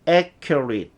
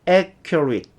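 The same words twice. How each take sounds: First: The ending is reduced, like 'it'. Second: The ending is reduced, like 'it'.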